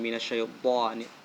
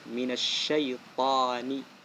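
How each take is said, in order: First: The ta is said with rounded, pouted lips. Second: The ta is said with the mouth open. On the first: The speaker calls it wrong. "Jadi bukan minasyaitani" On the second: The speaker calls it right. "Dan mulutnya terbuka, tidak monyong"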